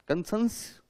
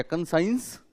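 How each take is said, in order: First: कंसेंस ending in a short "sens"; alternative pronunciation. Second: कंसाइंस with an "ai" glide in the second syllable; chosen pronunciation. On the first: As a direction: say कंसेंस without any "ai" glide. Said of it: "कंसेंस भी बोल सकते हैं". (कंसेंस, छोटी 'ए' ध्वनि से) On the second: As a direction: say कंसाइंस to rhyme with "signs". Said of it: "कंसाइंस बोलूं?". (कंसाइंस, 'आइ' ध्वनि से) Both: Shown as a demonstration.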